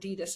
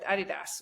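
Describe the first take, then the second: First: It is said in an American accent. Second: It is said in a British accent.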